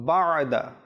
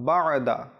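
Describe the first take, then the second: Both takes have the same delivery.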